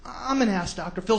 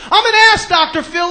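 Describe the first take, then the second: First: Soft, unconvinced mock confession; half-hearted. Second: High, loud mock confession; like he means it. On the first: Guest obeying TV host, soft and half-hearted. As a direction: mutter it meekly like a reluctant guest. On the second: Guest finally obeying TV host, emphatic shout. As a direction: shout it out with full conviction. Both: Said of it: "Say it like you mean it".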